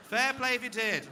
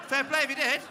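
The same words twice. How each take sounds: First: High, loud praise shouted a second time; loud cheer again. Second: Big, high, loud shout of praise; loud cheer. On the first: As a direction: call it out once more to the room. Repeats the cheer to the crowd. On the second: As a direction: bellow it out like a hearty toast. Cheering asthmatics who climbed hills. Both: Real, not acted.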